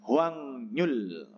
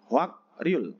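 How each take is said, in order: First: It is read with ng then n in the middle. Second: It is read with k then r in the middle. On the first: The speaker calls it right. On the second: The speaker calls it wrong. "Hwak Ryul ya tulisannya"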